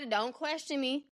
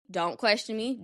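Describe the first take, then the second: First: Softer, slow mock warning; hushed mock-stern don't ask; playfully defensive. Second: Said in the usual way. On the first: Real, not acted. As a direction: warn them off, half-joking.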